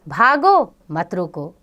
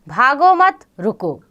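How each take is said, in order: First: The pause comes after bhago. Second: The pause comes after mat.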